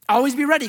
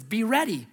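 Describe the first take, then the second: First: Louder and higher, leaning hard on ready; emphatic urging. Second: Said in the usual way. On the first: Acted. Preacher pressing the congregation to be ready, loud and emphatic. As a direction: drive the command home.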